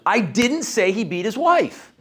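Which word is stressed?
didn't. The stress falls on the second word. The statement was never made. "Now I'm denying it"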